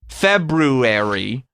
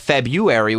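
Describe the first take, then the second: First: The first R sound is pronounced. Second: The first R sound is dropped. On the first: The speaker calls it right. "the word is correctly pronounced February" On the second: The speaker calls it wrong. "almost always pronounced February without the R"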